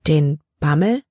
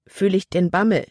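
First: Bammel asked with a rising tune; puzzled echo. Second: Bammel said with a falling tune; stated word. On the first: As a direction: repeat it back as a surprised question, Bammel rising. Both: Acted. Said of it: "wiederholte Libby".

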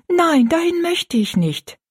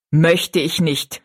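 First: High, drawn-out plea of refusal; girl's protest. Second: Mocking repetition. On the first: Rosalie begging not to go, high and slow. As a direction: plead in a much higher, slower girl's voice. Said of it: "sagte Rosalie rasch". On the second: Stepmother echoing Rosalie's refusal, slowly and mockingly. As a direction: repeat it back with slow, cold disdain. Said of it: "wiederholte Frau Joyce". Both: A narrator's reading.

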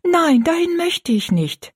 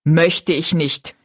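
First: Put-on high, drawn-out girlish plea; hasty protest. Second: Stepmother echoing. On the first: Girl begs not to go to the workhouse, high and pleading. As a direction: plead against it, pitched right up. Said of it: "sagte Rosalie rasch". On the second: Stepmother throws the girl's words back, slowly and coolly. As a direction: repeat it back slowly, weighing each word. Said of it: "wiederholte Frau Joyce". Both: A narrator's reading.

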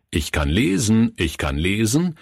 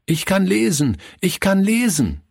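First: Said in the usual way. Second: Put-on high, excited boy's voice; jubilant calling out. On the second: A narrator's reading. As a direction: proudly call it out to everyone, pitched high. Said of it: "rief er jedem zu". (jubelnd und hoch gerufen)

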